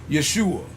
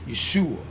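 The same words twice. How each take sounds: The two takes are said the same way.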